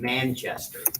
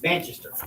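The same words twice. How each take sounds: First: Every syllable is pronounced fully, American style. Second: The syllables are reduced, English style.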